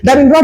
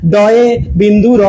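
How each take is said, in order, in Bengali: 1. এটা দ্রুত বলা হয়, শব্দাংশগুলো একসাথে জুড়ে যায়। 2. এটা ধীরে বলা হয়, প্রতিটি শব্দাংশ স্পষ্ট করে বলা হয়। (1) "তাড়াহুড়ো করে উচ্চারণ করি" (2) "কত কষ্টও হচ্ছে, বলতে টাইমও লাগছে"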